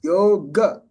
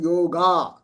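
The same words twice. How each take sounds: First: The final vowel is short and clipped. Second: The final vowel is drawn out long. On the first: The speaker calls it right. "Then yoga" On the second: The speaker calls it wrong. "It's not yoga. If it was yoga, there will be a bar on top"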